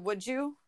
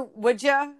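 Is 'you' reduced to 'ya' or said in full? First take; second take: full; reduced. First: The word 'you' is said in full. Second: The word 'you' is reduced to 'ya'.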